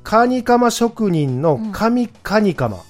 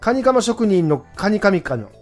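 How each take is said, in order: First: It is said slowly. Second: It is said fast.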